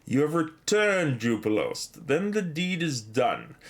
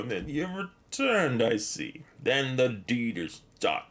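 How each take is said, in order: First: Slow, solemn read of the quest giver's line. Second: Put-on slow, drawn-out old wizard voice; Radagast. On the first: Retold or imitated. Streamer reading the quest giver's welcome aloud, slow and solemn. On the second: Streamer echoing the wizard's line to chat, slow and solemn. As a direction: intone it like the wizard in the tower. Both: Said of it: "That's exactly the same as Radagast the Brown says".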